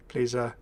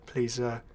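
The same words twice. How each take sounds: The two takes are said the same way.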